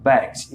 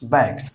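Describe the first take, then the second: First: बैग्स said the correct way, ending in a voiced z sound; correct pronunciation. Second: बैग्स said the common wrong way, with a plain s at the end; wrong pronunciation. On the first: Teacher shows students the right form: बैग्स ending in z. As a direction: finish बैग्स on a buzzing z instead of an s. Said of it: "तो ज". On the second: Teacher shows students the mistake: बैग्स with an s ending. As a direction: say बैग्स ending on a hissed s, as most people do. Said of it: "ये भी हम लोग गलत पढ़ते थे". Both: Shown as a demonstration.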